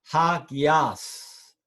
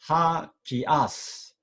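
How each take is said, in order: The two takes are said the same way.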